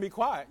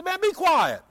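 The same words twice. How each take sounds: First: Said in the usual way. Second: Loud, high-pitched hushing, falling at the end; imitated scolding outburst; mock exasperated rebuke. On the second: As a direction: act out an annoyed crowd silencing someone. Crowd rebukes the beggar, louder.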